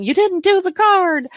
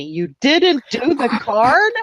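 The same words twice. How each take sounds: First: High-pitched mock scolding, falling at the end; playful high telling-off; mock yell. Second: Drawn-out, higher-pitched mock accusation, rising at the end; teasing slow holler after a laugh; mock yell. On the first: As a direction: imitate someone yelling a complaint. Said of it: "Nobody yelled at me". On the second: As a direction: imitate a friend yelling, slowly stretched. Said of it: "Tom's yelling at me".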